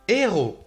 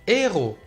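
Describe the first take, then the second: Both takes have the same delivery.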